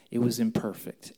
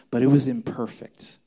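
First: Said in the usual way. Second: Louder, stress on "was" in "it was imperfect"; firm loud admission; emphatic. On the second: Real, not acted. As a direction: press the word "was" hard.

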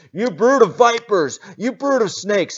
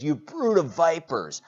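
First: Much higher, much louder yell; John yelling at the crowd, furious yell. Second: Raised voice on brood; preacher quoting another translation, loud rebuke. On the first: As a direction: scream it like a wild prophet. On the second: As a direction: call them out, loud and high. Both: Acted.

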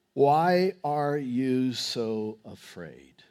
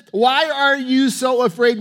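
First: Slow, lowered, softer questioning; quiet, deliberate reproach; measured question. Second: High, forceful challenge; incredulous, loud reproach; loud rebuke. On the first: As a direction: draw out each word gravely. Jesus questions disciples, read slowly. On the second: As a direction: confront frightened followers with raised voice. Jesus rebukes the disciples. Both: Acted.

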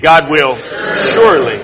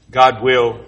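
First: God punched with full conviction; said like you mean it. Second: Said in the usual way. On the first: Shown as a demonstration. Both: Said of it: "come on, say it like you mean it".

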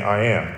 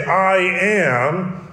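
First: Said in the usual way. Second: "I am" stressed and pitched high; emphatic I AM. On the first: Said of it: "that's the normal way of saying". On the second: Shown as a demonstration. Preacher showing how to really say it, emphatic. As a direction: lean hard on "I am", lifting both words. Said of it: "to really say".

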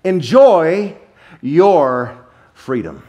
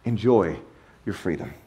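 First: Enjoy loud and rising, then your freedom slow and drawn out; proclaimed. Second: Enjoy your freedom said much softer and lower; quiet repeat. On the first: Preacher announcing God's will to the congregation, loud and slow. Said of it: "Here's the will of God for your life". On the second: Preacher quietly restating God's will to the congregation. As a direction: drop to a soft, low echo of Enjoy your freedom. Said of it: "And that's it". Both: Shown as a demonstration.

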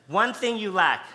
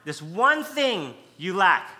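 First: Emphatic One thing you lack; emphatic quote. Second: Slow, weighty stress on one; This one thing said weightily; emphatic fronting. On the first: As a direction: stress on One, said loud and firm. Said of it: "it's emphatic". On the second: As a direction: land on one, slowly. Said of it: "he's putting it in the front". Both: Shown as a demonstration.

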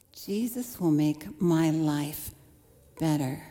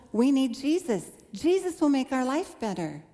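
First: Slow, wry repeat. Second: A touch higher, eager and hopeful; bright hopeful promise, lightly retold; young convert's excitement. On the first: Shown as a demonstration. Preacher looking back on her naive hope, slow and wry. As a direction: lower and slow, each word weighed. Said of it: "That's what I expected". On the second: New believer telling her parents, mildly excited. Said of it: "I was so excited".

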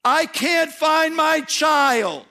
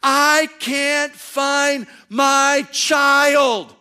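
First: High, slow, aching cry of a grieving parent; God crying out for a lost child; anguished plea. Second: High, slow, stretched-out panicked shout; mother screaming across the mall for her child; frantic scream. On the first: Acted. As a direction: plead like God searching for the lost. God's heart for lost people. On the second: Retold or imitated. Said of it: "she screams at the top of her lungs".

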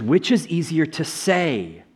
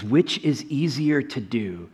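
First: Slow question leaning on "say"; stress on say. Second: Slow question leaning on "do"; stress on do. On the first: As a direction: draw out "say" as the key word. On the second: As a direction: draw out "do" as the key word. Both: Shown as a demonstration. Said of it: "He doesn't say do".

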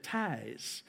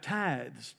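First: "tithes" said like "ties"; misheard as ties. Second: "tithes" with a voiced th before the final s. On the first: Retold or imitated. Boy mishearing his pastor, saying "tithes" as "ties". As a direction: drop the th in "tithes", ending on a z sound. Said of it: "I thought he said". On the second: Shown as a demonstration. Preacher correcting what he misheard, "tithes" with its th. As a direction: sound the th clearly in "tithes". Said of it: "T I T H E S".

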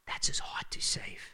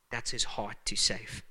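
First: Whispered refrain. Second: Said in the usual way. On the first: Acted. Pastor whispers the refrain to the church, hushed. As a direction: drop to an intimate whisper.

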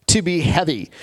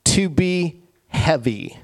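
First: Said in the usual way. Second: Slow, weighty. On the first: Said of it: "Doesn't make sense, does it?". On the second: Shown as a demonstration. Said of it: "Here's what it literally means".

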